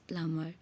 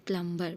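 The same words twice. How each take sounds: First: The b sound is left silent in the middle. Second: The b sound is pronounced in the middle. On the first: The speaker calls it right. "but the sound is plumber" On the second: The speaker calls it wrong. "Usually we used to say plumber"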